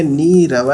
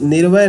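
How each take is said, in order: First: नीरव with a long ee, nee-ra-va; drawn-out nee in नीरव; correct long-vowel form. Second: निर्वय with a short i, nir-vay; short, joined-up निर्वय; wrong short-vowel form. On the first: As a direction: stretch the first vowel of नीरव and sound each syllable. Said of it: "नीरव है". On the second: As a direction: say निर्वय in two closed-up syllables, short first vowel. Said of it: "निर्वय नहीं होता है". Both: Shown as a demonstration.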